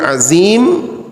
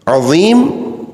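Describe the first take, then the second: First: The middle consonant is a plain light z. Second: The middle consonant is emphatic and heavy. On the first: It means a sorcerer. The speaker calls it wrong. "artinya zat yang melakukan sihir" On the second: It means the Most Great One. The speaker calls it right. "zat yang maha agung"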